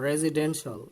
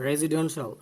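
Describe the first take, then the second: The two takes are said the same way.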